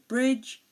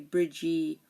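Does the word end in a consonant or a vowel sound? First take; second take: consonant; vowel. First: The word ends on the consonant sound. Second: An extra vowel sound is added at the end. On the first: The speaker calls it right. "the E here is silent" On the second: The speaker calls it wrong. "we don't say"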